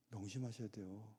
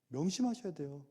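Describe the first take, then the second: First: Soft reminder. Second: Said in the usual way. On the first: Real, not acted.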